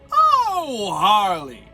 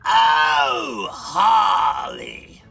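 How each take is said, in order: First: It is nasal without grit. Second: It is nasal and gritty, like the Joker.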